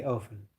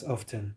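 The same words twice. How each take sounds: First: "often" with the T dropped, OFF-en; silent T. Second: "often" with the T sounded, OF-ten; T pronounced. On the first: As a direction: say "often" as if it had no T. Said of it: "Americans don't pronounce the T". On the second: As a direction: say "often" with an audible T after the F. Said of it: "you all pronounce the, the T". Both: Shown as a demonstration.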